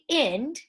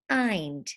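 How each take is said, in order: First: The vowel is short, as in 'wind'. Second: The vowel is long, as in 'eye'. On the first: The speaker calls it wrong. "We don't say ind" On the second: The speaker calls it right. "we say eind"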